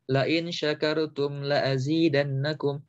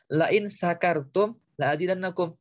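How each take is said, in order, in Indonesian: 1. Kata kedua diawali dengan bunyi 'sh'. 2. Kata kedua diawali dengan bunyi 's'. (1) "shinnya pakai shin" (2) "pakai sin"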